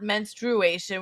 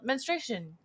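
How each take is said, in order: First: A 'u' sound follows 'menstr'. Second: No 'u' sound follows 'menstr'. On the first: This is the older way of saying it. "not menstruation" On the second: This is the newer way of saying it. "I think we just dropped the U though at a certain point"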